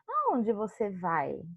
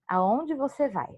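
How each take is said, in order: First: It is said with a clear questioning tune. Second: It is said flat, without a questioning tune. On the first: It comes across as a real question. "se eu vou colocar a entonação de pergunta" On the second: It does not come across as a question. "eu não dei a entonação de um sinal de interrogação de pergunta"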